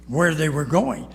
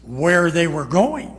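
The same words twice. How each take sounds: First: Said in the usual way. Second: Slow, louder where they were going; emphatic teaching. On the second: Shown as a demonstration. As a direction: stress it for the notes. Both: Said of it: "put a two".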